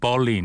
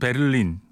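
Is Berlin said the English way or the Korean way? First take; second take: English way; Korean way. First: It has two syllables with an English r sound. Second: It has three syllables with a clear middle vowel. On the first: This is how English speakers say it. The speaker calls it wrong. "영어하는 친구들은 벌린 이렇게 발음하잖아요" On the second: This follows how the locals say it. The speaker calls it right. "우리는 베를린"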